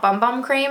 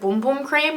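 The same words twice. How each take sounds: First: Bum Bum is said the Australian way. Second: Bum Bum is said in a non-Australian way. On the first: "Not Bum Bum Cream, as Australians would say" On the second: "is it Bum Bum Cream?"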